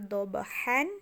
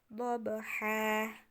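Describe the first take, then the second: First: The word ends with an n sound. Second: The word ends with a long a vowel. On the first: The speaker calls it wrong. "bukan lagi dhabhan" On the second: The speaker calls it right. "tapi jadinya dhabha"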